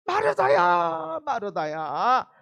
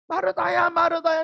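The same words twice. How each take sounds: First: Loud, slow, drawn-out call of her name; plead, stretching every syllable; earnest plea, slow. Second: Earnest plea. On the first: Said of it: "왜 간곡하게 말을". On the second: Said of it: "너무 간곡하게 말하는 거예요". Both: Retold or imitated.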